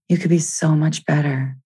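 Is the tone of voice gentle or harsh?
gentle. It is said in a gentle, kind tone. The speaker is encouraging themself. The speaker calls it right. "Just gentle, gentle"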